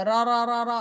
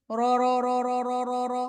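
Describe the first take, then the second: First: Quick র repeated with unrounded mouth; unrounded lips. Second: Level, repeated র with an o colour; rounded lips. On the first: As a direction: repeat র without rounding the lips. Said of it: "মুখ গোল না করলে". (ঠোঁট গোল না করে র) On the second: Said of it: "ঠোঁট গোল করলে". (ঠোঁট গোল করে র) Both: Shown as a demonstration.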